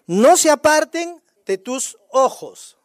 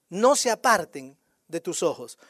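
First: Slow, emphatic verse reading, loud; lectura enfática. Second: Slow, lower-pitched repeat of the verse; repetición pausada. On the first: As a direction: declare each word slowly and loudly. Lectura enfática del versículo. (lectura lenta, fuerte y enfática) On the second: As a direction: say it slowly, let it sink in low. Repite el versículo más bajo. (repetición lenta y grave) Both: Real, not acted.

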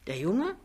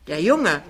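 First: "Der Junge?" as a puzzled rising question; verdutzte Nachfrage. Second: "der Junge" loud and falling, in recognition; begreifend. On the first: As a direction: lift "Junge" at the end, not understanding. Mutter stutzt, fragt nach. („Junge“ verdutzt fragend, Stimme steigend) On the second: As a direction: punch "Junge" loudly, then let it fall. Nach Ach so: begreift. („Junge“ laut, fallend, begreifend) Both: Acted.

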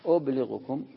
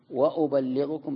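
First: أبلغكم with a single short lam, ubliɣkum; light reading. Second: وأبلغكم said slowly with the lam doubled and held. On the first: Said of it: "بالتخفيف". (أبلغكم بلام مخففة غير مشددة) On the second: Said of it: "بالتشديد". (وأبلّغكم بتشديد اللام ومدّها) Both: Shown as a demonstration.

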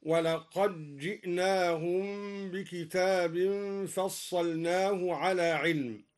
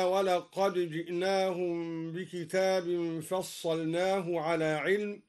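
First: Slow recitation, doubled j swallowing the d of ولقد; dal merged into jeem. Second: Measured recitation, wa-laqad ji'naahum for ولقد جئناهم; unmerged dal. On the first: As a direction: recite ولقد جئناهم as wa-laqajji'naahum. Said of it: "أدغم الدوري الدال في الجيم هكذا". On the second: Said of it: "أدغم الدوري الدال في الجيم". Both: Shown as a demonstration.

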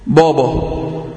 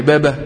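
First: بابا thick and backed, lower in pitch; wrong heavy baba. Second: بابا thin and fronted, "bæbæ"; light baba. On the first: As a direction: show the faulty heavy "bawbaw" in بابا. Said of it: "لا". (بابا مفخمة خطأً) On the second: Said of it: "يعني أقولها إزاي؟". (بابا مرققة) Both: Shown as a demonstration.

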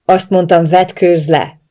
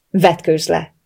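First: Loud, forceful repeated command; shouted order. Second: Firm order at a controlled level; commanding. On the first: Captor repeating an ignored order, shouting it. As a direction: shout it, out of patience. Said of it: "ordította újra". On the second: Captor giving his captive an order, brooking no argument. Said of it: "utasított ellentmondás nem tűrő hangon". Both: A narrator's reading.

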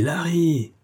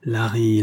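First: Higher, shouted call of Larry!; angry host shouting for the butler; hot-tempered shout. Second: Said in the usual way. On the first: Acted. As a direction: yell Larry! across the room. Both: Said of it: "cria le bouillant amphitryon".

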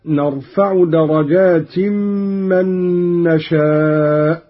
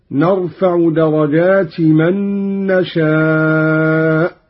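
First: Said in the usual way. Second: درجات as "darajati", no n before من; without tanwin. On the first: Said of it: "درجات بغير تنوين". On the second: Shown as a demonstration. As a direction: link درجات straight to من with a short i. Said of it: "بغير تنوين على الإضافة".

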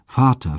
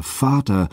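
First: Higher, anguished cry for her father; piercing wail. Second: Higher, anguished cry, drawn out; piercing wail. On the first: Europa, abandoned on a strange shore, cries for her father in anguish. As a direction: call out in grief, waking alone. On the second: Europa, abandoned on a strange shore, wails for her father again. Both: A narrator's reading. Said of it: "rief sie mit durchdringendem Wehelaut".

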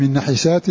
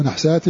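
First: "نحسات" as nahisaat, with a short i after ha; kasra on the ha. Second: "نحسات" as nahsaat, ha closed without a vowel; sukun on the ha. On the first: Teacher repeating the first reading of the verse, "نحسات" as na-hi-saat. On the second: Teacher giving the other reading, "نحسات" as nah-saat. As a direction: close the first syllable of "نحسات" on the ha. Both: Shown as a demonstration. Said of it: "أو نحسات".

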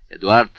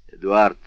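First: Sharp, loud shout of the name; резкий крик. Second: Put-on a father calling the child to order; повелительный оклик. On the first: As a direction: bark the boy's name so he jumps up. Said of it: "крикнул Вильфор так резко". (резко и громко выкрикнуть «Эдуард!») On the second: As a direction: give a short, commanding call of the boy's name, a touch louder. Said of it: "повелительно глядя на ребёнка". (повелительно, коротко «Эдуард») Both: A narrator's reading.

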